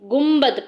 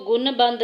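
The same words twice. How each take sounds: First: गुम्बद with the न turned into म before the ब; right pronunciation. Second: गुनबंद with a clear न sound before the ब; wrong pronunciation. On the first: Teacher showing students the correct iqlab, गुम्बद with m. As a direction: say गुम्बद, lips closed on m. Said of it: "बल्कि हम उसको". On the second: Teacher showing students the wrong way, गुनबंद with n. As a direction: say गुनबंद with the plain n, as not to do it. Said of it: "हम उसको गुनबंद नहीं पढ़ते". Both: Shown as a demonstration.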